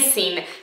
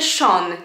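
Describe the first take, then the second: First: The name sounds like 'sin'. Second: The name sounds like 'shawn'. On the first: The speaker calls it wrong. "nie Sin" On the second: The speaker calls it right. "To imię czyta się Sean"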